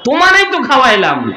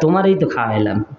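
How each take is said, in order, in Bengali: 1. এটি রাগান্বিত সুরে বলা হয়েছে। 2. এটি শান্ত, সাধারণ সুরে বলা হয়েছে। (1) "রাগান্বিত কয়" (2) "এমন ভাবে কয় না"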